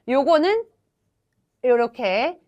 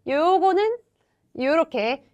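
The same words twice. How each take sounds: The two takes are said the same way.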